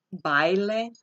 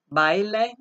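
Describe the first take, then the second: First: "baile" said again, calmer, ai kept as one gliding syllable; diphthong demo. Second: Baile with ai glided into one syllable, raised; "baile" as ba-i-le merged, bai-le; diphthong demo. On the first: Spanish teacher repeating diphthong for students, glided. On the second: Spanish teacher showing students a diphthong, glided vowels. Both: Shown as a demonstration. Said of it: "that is a diphthong".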